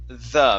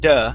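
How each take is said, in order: First: It starts with a soft th sound. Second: It starts with a hard d sound. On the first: The speaker calls it right. "Make sure to pronounce the th there" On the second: The speaker calls it wrong. "the word is not duh"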